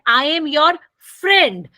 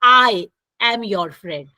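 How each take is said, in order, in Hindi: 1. Stress शब्द friend पर है। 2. स्ट्रेस शब्द I पर है। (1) "जब फ्रेंड पे स्ट्रेस करते हैं" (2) "मैं किस पे ज़ोर दे रही हूँ? आई पे"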